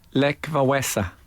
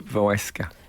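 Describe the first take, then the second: First: The name ends without any k sound before the a. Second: The name ends with a k sound before the a.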